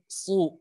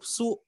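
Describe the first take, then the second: First: "su" with a thick emphatic s; shad dhammah tebal. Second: "su" with a thin, plain s; sin dhammah tipis. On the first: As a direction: raise the tongue back on "su". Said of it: "gitu, tebal". ("su" tebal, pangkal lidah naik) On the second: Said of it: "nggak naik pangkal lidahnya". ("su" tipis, pangkal lidah tidak naik) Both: Shown as a demonstration.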